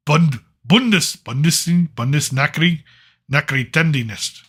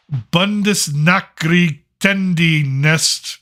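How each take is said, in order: First: Bund- Bundes- Bundes- Bundesnachri- Nachrichtendienst stumbled through on purpose, restarting each piece; deliberate butchering. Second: Bundesnachrichtendienst read very slowly, syllable by syllable, in an English mouth; drawn-out reading. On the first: Vlogger mangling the German agency name for comedy, halting deliberate stumbles. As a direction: trip over Bundesnachrichtendienst in chunks for a laugh. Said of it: "I'm gonna do it on purpose because it's funny".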